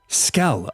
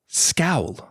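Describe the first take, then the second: First: The vowel is short, as in 'dull'. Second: The vowel glides, as in 'owl'. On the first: The speaker calls it right. "I say skull" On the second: The speaker calls it wrong. "This scowl thing, it's not a real thing"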